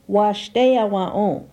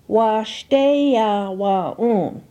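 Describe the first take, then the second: First: It is said at normal conversational speed. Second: It is said slowly, each syllable distinct. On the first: "second for normal pronunciation" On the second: "First for enunciation"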